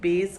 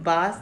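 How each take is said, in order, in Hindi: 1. यह स्वर मध्य का 'eh' है। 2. यह स्वर लंबा, खुला 'ah' है। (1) "बेस कहेंगे" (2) "बास नहीं कहेंगे"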